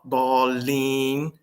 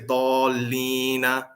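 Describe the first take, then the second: First: The word ends without a final vowel. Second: The word ends with a final vowel. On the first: The speaker is stopping at the end of the verse. The speaker calls it right. "Why do we stop?" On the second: The speaker carries on without stopping. The speaker calls it wrong. "we don't say"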